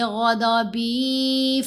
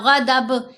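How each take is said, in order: First: The word ends on a lengthened vowel. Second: The word ends on a bare consonant. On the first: The speaker calls it right. "हरकत के साथ ही पढ़ेंगे" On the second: The speaker calls it wrong. "ऐसे नहीं करना"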